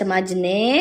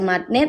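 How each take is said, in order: First: A j sound is heard before the ending. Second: A t sound is heard before the ending. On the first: "jangan ada yang baca majene" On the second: "ada yang baca matne"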